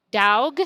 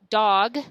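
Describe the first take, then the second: First: DOG as Southern DAWG, punched a little louder; Southern accent. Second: Said in the usual way. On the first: Shown as a demonstration. Teacher contrasting the kid's dialect, Southern accent. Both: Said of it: "hear the difference?".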